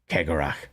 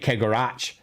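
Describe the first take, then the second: First: The final sound is a throaty, German-style fricative. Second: The final sound is 'ch' as in church. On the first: "the k noise that is very common in German is common in Scots" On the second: "they see a C H and they immediately go ch, like church"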